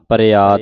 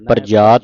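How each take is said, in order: First: The middle consonant is a 'y' sound. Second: The middle consonant is a 'j' sound. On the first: The speaker calls it right. "ਪ੍ਰਯਾਤ ਬੋਲਣਾ ਹੈ" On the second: The speaker calls it wrong. "ਪ੍ਰਜਾਤ ਨਹੀਂ"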